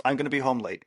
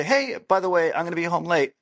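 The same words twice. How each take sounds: First: Said in the usual way. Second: Higher and louder, light and friendly; friendly, casual. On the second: Shown as a demonstration. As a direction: make it a breezy heads-up. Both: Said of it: "Very different meaning".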